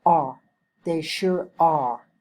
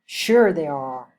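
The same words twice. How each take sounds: First: Strong stress on "are", falling at the end. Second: Slow, with "Sure" punched at the start; stress on SURE. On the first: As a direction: land hard on the last word "are" and let it fall. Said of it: "Use strong stress and rising and". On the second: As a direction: hit "Sure" hard, then fall away. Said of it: "the stress is on sure". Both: Shown as a demonstration.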